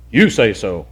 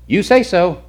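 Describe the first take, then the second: First: "You say so" pitched low, leaning on "You"; alternative inflection on YOU. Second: "You say so" pitched high and louder; alternative inflection. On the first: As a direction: drop the pitch and stress "You" in "You say so". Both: Shown as a demonstration. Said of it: "I don't know the inflection in his voice".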